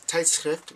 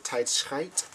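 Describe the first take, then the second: First: Tijdschrift with short i, ending ft, drawn out; word for magazine. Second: Tijdschrift said as tijd-schijt, pitched up; word with slip. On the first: Telling what the word means, tijdschrift pronounced correctly. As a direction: say tijdschrift slowly and correctly, like shift. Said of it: "tijdschrift means magazine". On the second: Telling what the slip means, tijdschrift mispronounced as tijd-schijt. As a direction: end tijdschrift in a long eye vowel and t. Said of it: "means time". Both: Shown as a demonstration.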